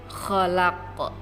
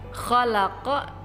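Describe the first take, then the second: First: The word ends with a bare consonant. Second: The word ends with a short vowel.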